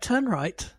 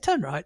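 First: It is slow and firm, with gaps between words. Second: It is quick and light, without gaps between words. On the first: The order must be followed exactly. "it was almost the gaps between the words that said, this is serious stuff" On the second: It is a routine instruction. "Not, yes, turn right"

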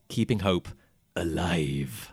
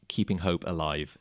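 First: The final word is strongly emphasized. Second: The final word has no special emphasis. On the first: The speaker calls it right. "It has an extreme font on the final word" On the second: The speaker calls it wrong. "It's not called"

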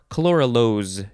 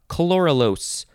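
First: The last syllable ends with a Z sound. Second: The last syllable ends with an S sound.

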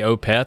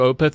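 First: The 'e' vowel is drawn out and leaned into. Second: The 'e' vowel is short and plain. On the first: This is how the speaker says it. "I say Opeth. I really lean into the eh" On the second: This is how the other person says it. "you do Opeth"

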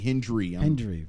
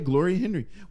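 First: The name is said with a D sound. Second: The name is said without a D sound. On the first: The speaker calls it right. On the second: The speaker calls it wrong.

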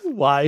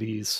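First: The word is said like 'wise'. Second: The word is said like 'ease'. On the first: The speaker calls it right. "It's Wise" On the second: The speaker calls it wrong. "My Ohio accent calls it Ease"

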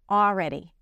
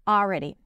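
First: The L sound is left out. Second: The same.

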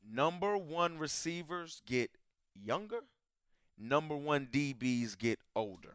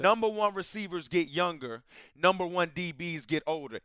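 First: It is said slowly and deliberately. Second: It is said at normal, quicker pace.

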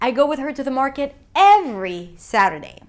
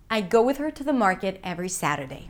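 First: The word 'every' carries the main stress. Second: No single word carries any special stress. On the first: "not once a month" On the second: "And again, neutral intonation"

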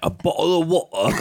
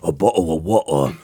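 First: A deep British accent at a higher pitch. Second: A deep British accent at a lower pitch. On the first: "A deep British accent" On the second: "Do it lower"

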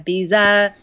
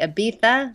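First: It is said in an American accent. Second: It is said in a Spanish accent.

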